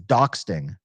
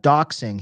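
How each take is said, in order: First: The word is said with an added t sound. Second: The word is said without an added t sound.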